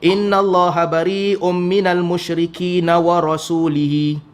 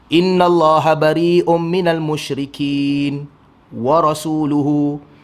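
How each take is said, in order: First: The last word ends with i-vowels: rasulihi. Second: The last word ends with u-vowels: rasuluhu. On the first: God disowns the idolaters and the Messenger. The speaker calls it wrong. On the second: The Messenger also disowns the idolaters. The speaker calls it right. "Ayat yang betul yang macam itulah"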